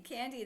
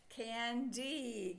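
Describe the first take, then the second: First: Said in the usual way. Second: "Candy" drawn out slowly, broken between N and D; split into syllables. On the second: Shown as a demonstration. Teacher showing pupils where the word divides, split into syllables. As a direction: say "Candy" as two long parts, can, dee. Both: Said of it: "we divide between the N and the D".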